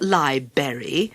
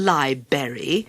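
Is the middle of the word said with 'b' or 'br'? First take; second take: b; b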